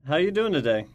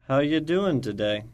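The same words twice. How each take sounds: First: It is said at normal speed. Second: It is said slowly.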